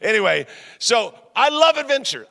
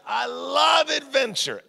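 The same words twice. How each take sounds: First: Said in the usual way. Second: "I love adventure" with "love" pitched high and drawn out slowly; a slow, high, rising burst of enthusiasm on "I love adventure"; excited exclaim. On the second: Shown as a demonstration. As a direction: gush that you "love adventure", stretching "love".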